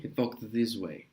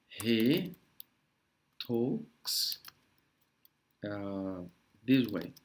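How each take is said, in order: First: Said in the usual way. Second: Hesitant model phrase with long pauses; word by word. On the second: Shown as a demonstration. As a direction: leave a gap after each word. (palavra por palavra, bem pausado)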